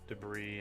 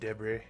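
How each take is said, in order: First: It is said in an American pronunciation. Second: It is said in an English pronunciation.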